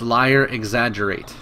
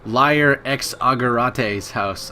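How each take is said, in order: First: The name is said as plain English words. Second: The name is said like a Japanese name. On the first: The speaker calls it right. "but no, it's Liar Exaggerate" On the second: The speaker calls it wrong. "I thought he was Japanese"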